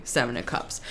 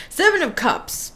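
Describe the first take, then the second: First: Card name dropped low and quiet; murmured "Seven of Cups" said low and soft; soft low first take of the card name. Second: "Seven of Cups" higher with a stressed "Seven"; bright stressed second take of the card name; emphatic. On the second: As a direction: announce "Seven" with a lift. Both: Shown as a demonstration.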